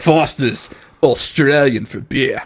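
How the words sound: It is said in a put-on Australian accent.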